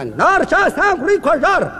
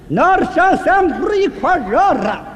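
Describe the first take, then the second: First: The phrase is spoken quickly. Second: The phrase is spoken very slowly. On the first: "英国话速度快的不能放慢了" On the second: "再慢点"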